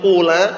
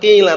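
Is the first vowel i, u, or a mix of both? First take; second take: u; i. First: The first vowel is a pure u sound. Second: The first vowel is a pure i sound. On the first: "enggak dhammah murni qula" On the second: "enggak kasrah murni qila"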